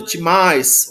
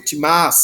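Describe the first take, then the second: First: Timais with the iota sounded, ending "ais". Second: Timás without the iota, a plain long "ás" ending. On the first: Teacher reads the verb form with the iota sounded. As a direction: say timais with the final i clearly heard. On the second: Teacher shows the form with a silent iota. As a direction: drop the i and say timás. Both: Shown as a demonstration. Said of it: "se você não pronunciar o iota subscrito".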